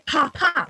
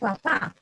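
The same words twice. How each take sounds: First: The p has a puff of air. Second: The p has no puff of air. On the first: This is not how Spanish speakers say it. "We don't say papa" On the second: This is how Spanish speakers say it. "we say papa"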